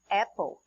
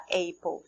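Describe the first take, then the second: First: The first vowel is a short a sound. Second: The first vowel sounds like the letter name. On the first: The speaker calls it right. "a gente fala apple, que é a pronúncia correta" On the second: The speaker calls it wrong. "a gente não fala apple"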